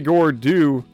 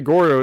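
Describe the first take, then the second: First: The name ends with an 'oo' vowel. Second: The name ends with an 'oh' vowel. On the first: It sounds like a little baby creature. The speaker calls it wrong. "Say Gordu, and it's like, what is this little baby slime?" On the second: It sounds like a manly creature. The speaker calls it right. "You say Gordo, it's like it sounds like a manly slime"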